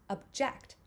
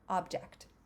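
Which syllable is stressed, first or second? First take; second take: second; first. First: The stress is on the second syllable. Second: The stress is on the first syllable. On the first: It names an action. "the second syllable has the stress" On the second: It names a thing. "the first syllable is is the stress syllable"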